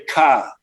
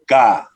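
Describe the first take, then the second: First: The syllable begins with a k sound. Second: The syllable begins with a g sound. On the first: The speaker calls it wrong. "you don't say ka" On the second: The speaker calls it right. "you say ga"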